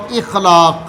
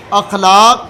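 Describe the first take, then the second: First: "اخلاق" said ikhlaaq with i, slow and falling; ikhlaaq, verbal noun form; second form. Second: "اخلاق" said akhlaaq with an open a, rising; "اخلاق" with a on the first letter; akhlaaq, plural form. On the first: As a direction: slowly give "اخلاق" with i on the first letter. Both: Shown as a demonstration. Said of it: "دونوں اپنی جگہ پہ درست ہیں".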